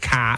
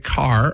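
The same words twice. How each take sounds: First: The final R is dropped, Boston style. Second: The final R is pronounced, American style.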